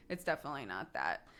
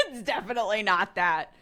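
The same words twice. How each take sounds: First: Lower, much softer, settled down; soft, low, sober restatement; subdued denial. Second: Amused denial with laughter in it; real laugh through the words. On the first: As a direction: say it quietly, without laughing. Same denial repeated after the laugh. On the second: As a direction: laugh while saying no. Laughing denial, then repeated soberly. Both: Real, not acted.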